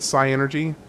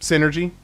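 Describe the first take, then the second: First: The word begins with a 'sigh' sound. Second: The word begins with a 'sin' sound. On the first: "but like psychology, but Psy-Energy" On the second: "I've always pronounced it as the latter in my head"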